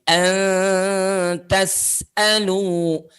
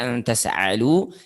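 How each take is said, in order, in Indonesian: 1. Hentian glotis datang sebelum vokal. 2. Vokal biasa mengikuti tanpa hentian glotis. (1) "Bunyi hamzahnya itu bedakan dengan bunyi a" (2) "tidak antas alu"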